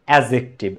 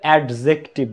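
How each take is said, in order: First: No d sound is heard before the j. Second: A d sound is heard before the j. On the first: The speaker calls it right. "এই ডিটা উচ্চারিত হয় না" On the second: The speaker calls it wrong. "এটার উচ্চারণ আসলে অ্যাডজেক্টিভ না"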